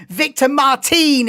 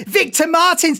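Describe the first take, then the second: First: Victor Martin said the French way, no final s, slowed; French accent. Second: Said in the usual way. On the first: Shown as a demonstration. Streamer jokingly saying the driver's name in French accent. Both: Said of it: "if you wanna say it with a French accent".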